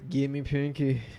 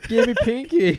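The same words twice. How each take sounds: First: A weak imitation of a movie character's accent. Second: A closer imitation of a movie character's accent. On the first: The speaker calls it wrong. "he's trying to do a Tommy Wiseau accent. it was pretty bad" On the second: The speaker calls it right. "That was better"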